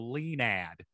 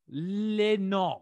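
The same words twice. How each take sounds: First: The final D is pronounced, American style. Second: The final D is silent, French style. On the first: "very American" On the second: "you at least didn't pronounce the D, so you really went for it French"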